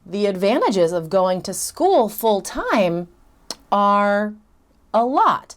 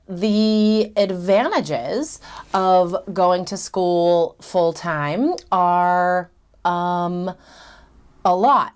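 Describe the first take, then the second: First: The hesitation is a silent pause without sound. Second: The hesitation is filled with the sound um. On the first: The speaker calls it right. "I had a couple pauses there" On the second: The speaker calls it wrong. "so I filled it with um"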